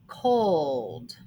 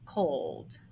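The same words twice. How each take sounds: First: Said in the usual way. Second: The word Cold said softly and lower. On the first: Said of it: "Next word". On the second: Shown as a demonstration. Teacher softly repeating the word for pupils, quiet.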